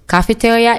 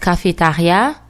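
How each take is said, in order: First: The word is pronounced with English sounds. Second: The word is pronounced with French sounds. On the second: "In French, it's cafetaria, but it's spelled the same way"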